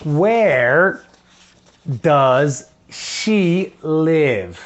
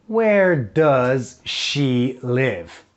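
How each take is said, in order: First: "does she live?" drawn out very slowly; slow model question. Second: Slow model question. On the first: Teacher drills the question slowly for first graders. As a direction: stretch each word for the class to copy. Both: Shown as a demonstration. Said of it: "Ok, so".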